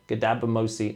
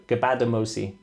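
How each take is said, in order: First: "Gadabamosi" with the d before the b; tentative go at "Gadabamosi", middle consonants swapped; mispronounced surname. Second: "Gabadamosi" with the b before the d; careful correction to "Gabadamosi", b then d; corrected surname. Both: Real, not acted. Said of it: "No, Gabadamosi".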